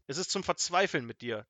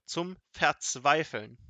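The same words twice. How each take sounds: First: Scolding at normal speed; exasperated. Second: „Verzweifeln“ drawn out slowly and loudly; slow, loud stress on „Verzweifeln“; emphatic exasperation. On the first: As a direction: complain in exasperation. Exasperated wizard scolds his servant. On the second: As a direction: stretch every syllable of „Verzweifeln“. Wizard repeats it for emphasis. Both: A narrator's reading.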